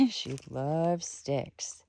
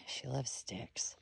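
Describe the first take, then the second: First: Said in the usual way. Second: Unvoiced, slow hushed line; whisper. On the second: Real, not acted. Owner murmuring about her dog, hushed whisper. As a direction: say it softly under the breath.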